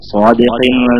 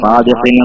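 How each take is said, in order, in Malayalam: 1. ആദ്യത്തെ 's' ശബ്ദം കനത്തതും ഊന്നിയതുമാണ്. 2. ആദ്യത്തെ 's' ശബ്ദം ലഘുവും സാധാരണവുമാണ്.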